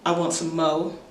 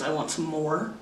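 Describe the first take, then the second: First: The final r sound is dropped. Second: The final r sound is pronounced. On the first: "There's often no R sound"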